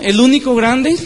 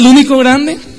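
First: It is said at normal, softer volume. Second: It is said louder and more forcefully.

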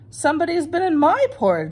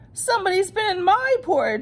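First: It is said in Mama Bear's voice. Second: It is said in Baby Bear's voice.

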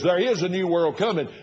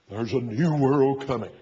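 First: It is said in his ordinary speaking voice. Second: It is said in a spooky announcer voice.

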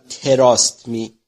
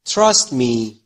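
First: It is said with a Persian-style pronunciation. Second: It is said with an English pronunciation. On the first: The speaker calls it wrong. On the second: The speaker calls it right.

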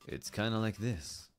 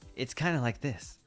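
First: It is a deep, low-pitched handsome voice. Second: It is a handsome voice at a higher pitch.

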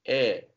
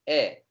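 First: The vowel is open, close to an A. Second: The vowel is spread and fairly closed. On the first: The speaker calls it right. "yatay değil de daha A'ya yakın bir yerde" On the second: The speaker calls it wrong. "Normalde E desen nasıl derdin?"

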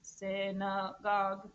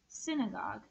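First: The word is said in a flat robot voice. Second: The word is said in a normal voice. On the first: "Can you say it in a robot voice?" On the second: "I want you to say the word synagogue"

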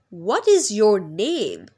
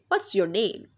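First: What and is are said as separate full words. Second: What and is are contracted into one short syllable.

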